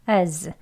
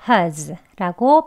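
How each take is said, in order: First: Weak schwa vowel without h, unstressed. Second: Weak schwa vowel with h, unstressed. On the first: "앞에 H 소리가 없고요. 슈아 어 소리 어 하고 z로 그냥 끝나는" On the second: "약하게 ... as 해가지고 has라고 발음하면 되겠습니다"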